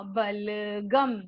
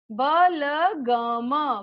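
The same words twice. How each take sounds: First: Said in the usual way. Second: बलगम split slowly into ba-la-ga-ma; syllable by syllable. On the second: Shown as a demonstration. Teacher to children, sounding out बलगम slowly. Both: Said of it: "शुद्ध उच्चारण के साथ हम बार बार दोहरा".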